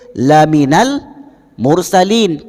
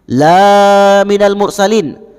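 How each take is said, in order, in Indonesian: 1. Vokal pertama dibaca pendek. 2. Vokal pertama dibaca panjang. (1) "Bacanya pendek" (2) "Kalau dibaca panjang"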